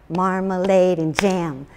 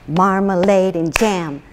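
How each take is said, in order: The two takes are said the same way.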